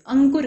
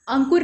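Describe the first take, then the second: First: अंकुर said with a clear nasal consonant n before k; correct pronunciation. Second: अंकुर said with a nasalised vowel instead of a clear n sound; wrong pronunciation. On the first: Teacher gives students the correct अंकुर, clearly. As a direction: say अंकुर the right way, full n sound. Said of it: "अंकुर कहते हैं". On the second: Teacher shows students the wrong अंकुर, nasal. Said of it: "अंकुर नहीं कहते". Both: Shown as a demonstration.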